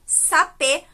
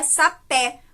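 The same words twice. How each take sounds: First: Sapê ending in a closed "ê", like "ay" without the glide; teacher contrasting a closed ê with the open é. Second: Sapé with the final E wide open, like "eh". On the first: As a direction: say sapê with the final E kept tight and closed. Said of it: "com o E fechado". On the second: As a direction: say sapé slowly, stressing an open "é". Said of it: "com o E aberto". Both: Shown as a demonstration.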